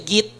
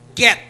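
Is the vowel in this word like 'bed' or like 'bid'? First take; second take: like bid; like bed. First: The vowel is a closer 'ih' sound. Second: The vowel is an open 'eh' sound. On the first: The speaker calls it wrong. "hindi siya git" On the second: The speaker calls it right. "say, get"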